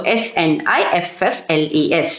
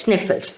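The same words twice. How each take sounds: First: S N I F F L E S spelled letter by letter, lower. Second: Said in the usual way. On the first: Shown as a demonstration. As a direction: spell out S N I F F L E S one letter at a time for the class. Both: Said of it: "Underline sniffles also".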